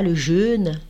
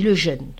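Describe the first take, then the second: First: The vowel is stressed and drawn out. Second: The vowel is short with no extra stress. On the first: This is the careful French way of saying it. "il ne dit pas le jeûne" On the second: This is the relaxed Creole way of saying it. "il n'insiste pas, il dit le jeûne"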